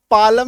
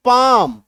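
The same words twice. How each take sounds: First: "पालम" in two syllables with the L sounded; spelling pronunciation. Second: "पाम" as one long syllable with no L; silent L. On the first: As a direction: read "पालम" as spelt, L included. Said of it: "इसको पालम नहीं पढ़ते". ("पालम" में ल बोलकर) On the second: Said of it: "पाम पढ़ते हैं।". ("पाम" में ल silent) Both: Shown as a demonstration.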